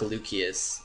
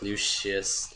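First: The middle consonant is an 's' sound. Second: The middle consonant is an 'sh' sound. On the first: The speaker calls it wrong. "It's definitely not like Lucius" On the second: The speaker calls it right. "the C is pronounced as like a S-H"

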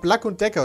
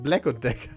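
First: Black is said with a German A vowel. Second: Black is said with an English E-like vowel. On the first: The speaker calls it wrong. "ich hab erst gesagt" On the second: The speaker calls it right. "nein, das heißt"

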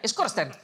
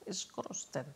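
First: The word is said quickly in one go. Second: The word is said slowly and carefully.

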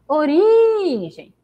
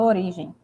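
First: The word is called out, stretching the stressed syllable. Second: The word is said in a plain, normal voice. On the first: "eu falo como se eu estivesse chamando" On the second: "Eu falo origem"

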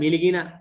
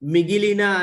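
First: The second syllable has an l sound. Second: The second syllable has a g sound. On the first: The speaker calls it wrong. "మిలిగిన అనడము" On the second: The speaker calls it right. "మిగిలిన అనే పదాన్ని"

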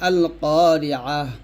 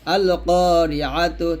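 First: The last word ends with an h sound. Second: The last word ends with a -tu syllable. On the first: The reader stops at this word. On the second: The reading continues without stopping.

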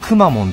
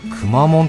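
First: The word has a pitch drop, not flat. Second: The word is said with a flat pitch.

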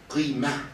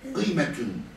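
First: The word ends on a vowel without t. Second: The word ends with a full t-un sound.

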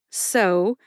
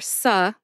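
First: The syllable is said with an 'oh' vowel. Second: The syllable is said with an 'uh' vowel. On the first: "so, like a needle pulling thread" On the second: "or su, like supper, either one's fine"

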